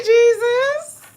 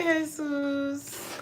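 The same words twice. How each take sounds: First: English "Jesus", /dʒ/ start and /zəs/ end. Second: "Jesus" said the Spanish way, heh-SOOS; Spanish "Jesus", h start and "sus" end; Spanish Jesús. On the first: Birthday viewer named "Jesus", English JEE-zus. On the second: Birthday viewer named "Jesus", Spanish heh-SOOS. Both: Shown as a demonstration. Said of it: "I don't know how we pronounce it".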